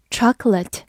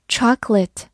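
First: Chocolate ending in a reduced "lət"; alternative pronunciation. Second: Chocolate ending in a clearer "lit" vowel; Chocolate, last syllable not reduced to a schwa; first pronunciation variant. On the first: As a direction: say chocolate with a schwa in the last syllable. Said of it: "或者也可以读作". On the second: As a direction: say Chocolate with a clear final "-let". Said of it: "或者也可以读作chocolate". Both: Shown as a demonstration.

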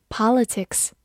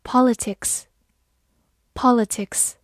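First: Politics in an American accent; American pronunciation. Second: Said in the usual way. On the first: Shown as a demonstration. Teacher giving students the American version, American pronunciation of "politics". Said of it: "美式发音".

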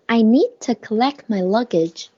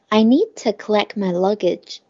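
First: Need with its d dropped, gliding straight into to; unreleased d. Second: Need with its final d left silent before to; unreleased d. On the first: Teacher showing the lost plosion in need to. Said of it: "need的的我没有读". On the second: Teacher repeating the lost plosion in need to. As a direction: hold back the d of need, no puff. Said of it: "那个的和to是失去爆破了". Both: Shown as a demonstration.

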